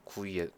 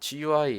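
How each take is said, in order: First: It is said as a single two-syllable word. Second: It is spelled out letter by letter. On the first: This is the usual reading abroad. "외국에서는 구이라고 그냥 발음해서 읽어요" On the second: This is the usual reading in Korea. "한국에서는 보통 지유아이라고 읽으니까"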